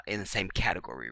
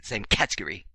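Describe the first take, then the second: First: Said in the usual way. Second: Mock British pronunciation of category; fake British accent. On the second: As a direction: put on a playful British accent. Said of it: "throw my fake British accent".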